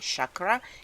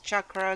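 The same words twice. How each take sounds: First: It is said in an anglicized Western way. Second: It is said the way the original language does. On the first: The speaker calls it wrong. "Don't follow the ignorant Westerners who think it's hip to say chakra" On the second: The speaker calls it right. "the correct way to say chakra is chakra"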